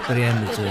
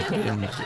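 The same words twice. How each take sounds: First: Laughing. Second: Softer, dropping away; soft repeat. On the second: Comedian echoing the wife's line to the crowd, soft fading repeat. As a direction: let the word fade out quietly. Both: Shown as a demonstration. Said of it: "હો".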